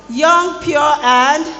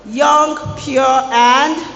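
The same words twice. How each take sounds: First: Put-on higher, louder call-out of "young, pure, and". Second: Put-on loud rising call-out of "Young, pure, and"; preacher calls out "Young, pure, and" loudly, rising on "and"; loud teaching call. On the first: Preacher urging the hall to answer, higher call. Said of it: "are there people in this hall". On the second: Preacher leads the congregation, loud call-out. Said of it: "what are we talking about today". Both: Shown as a demonstration.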